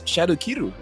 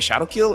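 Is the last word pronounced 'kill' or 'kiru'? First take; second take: kiru; kill. First: The last word is two syllables, 'kiru'. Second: The last word is one syllable, 'kill'. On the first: The name keeps its Japanese form. The speaker calls it right. "that's exactly how you pronounce the skill name" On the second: The name is westernized. The speaker calls it wrong. "I keep hearing people say Ogi Shadow Kill"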